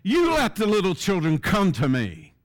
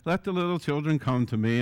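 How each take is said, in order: First: It is said in an angry, indignant way. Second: It is said in a mild, gentle way.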